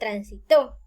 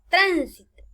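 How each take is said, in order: First: The stress is on the last syllable. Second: The stress is on the first syllable. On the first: "a la columna aguda la palabra transitó" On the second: "en las esdrújulas agregarán la palabra tránsito"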